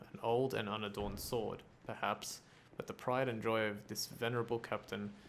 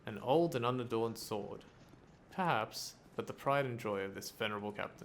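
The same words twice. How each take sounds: First: Perhaps runs on from the sword phrase before it. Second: A break after sword; perhaps starts the next phrase. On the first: The speaker calls it wrong. "The inflection is so off" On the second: The speaker calls it right. "That's how it should be read"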